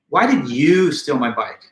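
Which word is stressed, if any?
you. The word you is stressed. "by placing accent on the word you"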